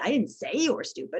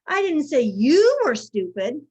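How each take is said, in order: First: The stress falls on the word say. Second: The stress falls on the word you. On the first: It was thought but not said. "I think you were stupid, but I didn't say it" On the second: It was said about someone else. "I said so-and-so was stupid"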